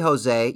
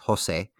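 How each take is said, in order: First: The name is said with an English pronunciation. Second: The name is said with a Spanish pronunciation. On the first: This is how others say the name. The speaker calls it wrong. "that's not how you say it in Spanish" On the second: This is how the name is said in its home language. The speaker calls it right. "In Spanish, it's Jose"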